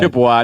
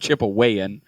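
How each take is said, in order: First: The word ends in a short final syllable. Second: The word ends with an added extra syllable. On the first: The speaker calls it right. "You say I'm Chippewa" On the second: The speaker calls it wrong. "not Chippewayan"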